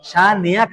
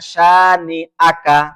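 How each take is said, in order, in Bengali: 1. y-গ্লাইড মাঝের স্বরগুলোকে জুড়ে দেয়। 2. গলা-আটকানো মাঝের স্বরগুলোকে আলাদা করে। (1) "শানিআকা না" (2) "আ এটা হামজা"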